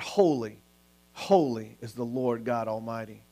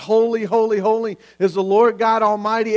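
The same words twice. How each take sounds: First: Low, soft, reverent quote; hushed retold worship. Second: Raised, mildly exclaimed worship cry; retold crying out. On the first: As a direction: drop down low and quiet, in awe. Retold angels' cry, now hushed. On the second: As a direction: retell the angels' cry with lifted voice. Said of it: "cry out and scream out".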